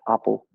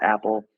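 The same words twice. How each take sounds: First: The first vowel is an open 'ah' sound. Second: The first vowel is a flat 'a' sound. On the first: "the British would pronounce it probably something like apple" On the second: "You and I would pronounce it apple"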